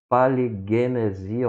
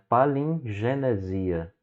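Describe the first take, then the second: First: No n sound comes before the g. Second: An n sound comes before the g. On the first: The speaker calls it wrong. "E não paligenesia" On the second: The speaker calls it right. "você lê esse G, trazendo para o nosso português, como N"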